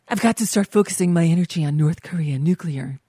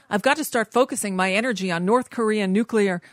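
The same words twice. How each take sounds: First: It is read in an imitated put-on voice. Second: It is read in the speaker's own normal voice.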